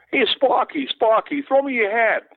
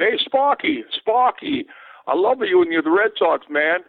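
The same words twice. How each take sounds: First: Imitating a fan shouting for a hat; calling fan. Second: Mock Boston accent, high and calling out; Boston fan accent. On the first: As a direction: yell up to the player from the bleachers. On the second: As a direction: call out like a Boston heckler in the bleachers. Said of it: "you could tell by the accent".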